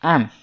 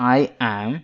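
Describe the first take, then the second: First: The two words merge into one short syllable. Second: Both words are said in full. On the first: "ಆಮ್ ಅಂತ ಹಾಕಿ" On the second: "ಐ ಆಮ್ ಅನ್ನೋ ಬದಲಾಗಿ"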